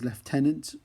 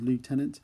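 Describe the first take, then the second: First: The word is said in a non-American way. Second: The word is said in an American way.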